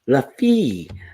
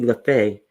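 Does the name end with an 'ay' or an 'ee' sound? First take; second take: ee; ay. First: The name ends with an 'ee' vowel. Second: The name ends with an 'ay' vowel. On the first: The speaker calls it right. "Look at her putting the pronun- pronunciation" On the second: The speaker calls it wrong. "I've been calling you LaFay"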